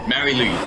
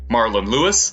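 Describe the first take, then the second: First: The name ends in a short 'lee' sound. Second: The name ends in a longer 'lewis' sound. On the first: The speaker calls it wrong. "I know I'm pronouncing this wrong" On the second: The speaker calls it right. "This could actually be probably pronounced like"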